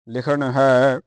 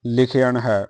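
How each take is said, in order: First: ਲਿਖਣ said short as likhan, the popular way; ਲਿਖਣ in the everyday two-syllable reading; ਲਿਖਣ as commonly read, likhan; common pronunciation. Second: ਲਿਖਣ in the correct pure form, likheyan; ਲਿਖਣ with the extra e-glide before the final n; pure pronunciation. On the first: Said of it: "ਤਾਂ ਜਿਹੜਾ ਪ੍ਰਚਲਿਤ ਹੈ ਉਹ ਲਿਖਣ ਹੈ". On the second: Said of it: "ਪਰ ਜਿਹੜਾ ਸ਼ੁੱਧ ਹੈ". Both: Shown as a demonstration.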